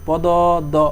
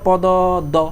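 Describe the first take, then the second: Both takes have the same delivery.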